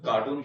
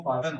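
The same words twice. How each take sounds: First: कार्टून said with a long oo, like the word cartoon; the common wrong कार्टून, long oo in the second syllable; कार्टून mispronounced as cartoon. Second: कार्टन said with a short second vowel, kar-tan; the right कार्टन, short a, not cartoon; कार्टन pronounced carton, short vowel; correct carton. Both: Shown as a demonstration. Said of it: "तो कार्टून ना कहें".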